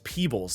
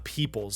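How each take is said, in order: First: The middle consonant is a B sound. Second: The middle consonant is a P sound. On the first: The speaker calls it right. "it's Peebles" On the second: The speaker calls it wrong. "not Peoples"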